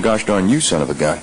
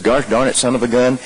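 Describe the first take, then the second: First: Mean it at the person in the room; directed at someone. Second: Mild mock yelp at a bumped knee; pained outburst. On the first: Retold or imitated. Man walks in cursing at someone, lightly imitated hostility. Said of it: "if he walks in the room going". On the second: Man who bumped his trick knee curses the pain. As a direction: swear at the pain, not at anyone. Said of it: "fundamentally different than if he walks in".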